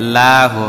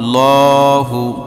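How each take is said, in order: First: The L is said thin and light. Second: The L is said full and heavy. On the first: "আর যদি জের থাকে তাহলে এ, বারিক হবে" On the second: "তার পূর্বে যদি জবর অথবা পেশ থাকে তখন ল হবে"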